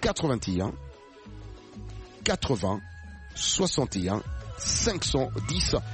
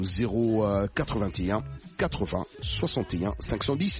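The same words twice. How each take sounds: First: The number is read slowly and deliberately. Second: The number is read at a normal pace.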